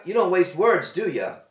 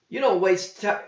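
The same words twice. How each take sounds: First: Higher, stress on "don't" in "you don't waste words"; wry quip. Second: Higher voice, stress on "don't", cut off; quip breaking off. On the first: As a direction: needle him dryly. John quips. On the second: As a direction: start the jab and stop. John quips, breaks off. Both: A narrator's reading.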